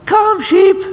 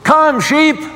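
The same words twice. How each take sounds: First: It is shouted in a squeaky, small child's voice. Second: It is shouted in a much stronger, fuller voice. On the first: "in her squeaky little 5-year-old voice" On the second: "he yelled in a much stronger voice"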